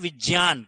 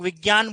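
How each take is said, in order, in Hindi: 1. संयोजन 'jy' की तरह बोला जाता है। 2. संयोजन 'jy' की तरह नहीं बोला जाता। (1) "शुद्ध उच्चारण है विज्ञान, क्योंकि ज और य से बनता" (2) "हालांकि लोग विज्ञान बोलते हैं"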